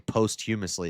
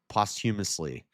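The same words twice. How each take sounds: First: The first syllable sounds like the word post. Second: The first syllable does not sound like post. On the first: "you would say post this. So that's why I say posthumously" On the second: "but then they say no, it's posthumously"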